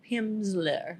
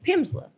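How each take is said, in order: First: "Pimsleur" drawn out slowly and softer; "Pimsleur" second take, slow. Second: "Pimsleur" pitched up with flourish; "Pimsleur" first take, high. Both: Shown as a demonstration. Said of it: "how you say it".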